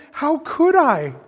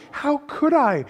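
First: Lucy pleading harder. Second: Lucy pleading. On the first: Second take, slower and louder. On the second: First take of repeated plea. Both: A narrator's reading.

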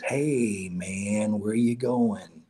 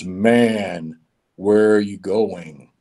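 First: Soft, slow, drawn-out call; voice in the wind. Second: Slow, weighty, deep voice of authority; deep voice from above. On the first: Unseen tree hails a passing traveler, soft drawn-out voice. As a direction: let it drift like wind through trees. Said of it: "in the wind, he hears something that says". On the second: The Lord calls down to the traveler, deep and slow. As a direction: draw each word out, low and commanding. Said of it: "a deep voice that says". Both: A narrator's reading.

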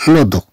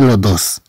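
First: Dos said as do with a silent s; correct pronunciation. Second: Dos with the final s sounded; wrong pronunciation. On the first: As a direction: drop the s and say do. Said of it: "بل نقول". (النطق الصحيح دو دون نطق s) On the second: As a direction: say dos pronouncing the s. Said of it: "لا نقول لو دوس". (نطق خاطئ دوس بنطق حرف s) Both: Shown as a demonstration.

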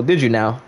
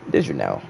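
First: Said in the usual way. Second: Very deep, soft repeat; low sceptical echo. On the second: Acted. Streamer doubts the viewer's prediction, very low and soft. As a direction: drop way down for a doubting murmur.

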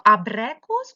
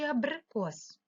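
First: Абрикос said with е, as абрекос; абрикос with middle vowel turned to е. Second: Абрикос with и in бри; абрикос, middle vowel и rather than е; clear и. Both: Shown as a demonstration. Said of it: "голосними е чи и".

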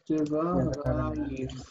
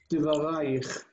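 First: Diva raich drawn out very slowly, syllable by syllable; slow model word. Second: Said in the usual way. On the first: Shown as a demonstration.

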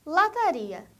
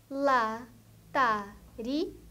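First: Said in the usual way. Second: "lataria" very slowly as la, ta, ri, a; four separate beats in "lataria"; syllable by syllable. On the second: Shown as a demonstration. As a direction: pause after each syllable of "lataria". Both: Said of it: "quatro ou mais sílabas".

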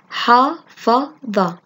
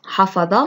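First: حفظ in three slow, separate beats; split into syllables. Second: Said in the usual way. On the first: Shown as a demonstration. Teacher breaking a word down for children, syllable by syllable. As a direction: sound out حفظ syllable by syllable, very slowly. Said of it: "تحليل الكلمات إلى مقاطع". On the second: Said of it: "تركيب من المقاطع كلمات".

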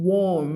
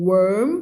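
First: "warm" with a rounded O, pitch falling; open O vowel. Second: "worm" with an er vowel, pitch rising at the end. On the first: Teacher contrasting warm with worm, "warm" said with a falling aw. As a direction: say "warm" clearly with an aw sound, dropping at the end. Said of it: "เสียง O นะ". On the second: Teacher contrasting worm with warm, "worm" said with a rising er. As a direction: say "worm" clearly with er, lifting the end. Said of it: "Worm ออกเสียง เอิม". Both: Shown as a demonstration.

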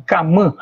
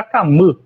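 First: "Camã" ending in a nasal open a; nasal-vowel variant. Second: "Camã" ending in a high central vowel. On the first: Linguist cites a variant from data, nasal ending on "Camã". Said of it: "isso varia muito". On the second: Linguist shows the variant, high central ending on "Camã". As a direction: close the last vowel of "Camã" to a tight ɨ. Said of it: "a vogal central alta". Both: Shown as a demonstration.

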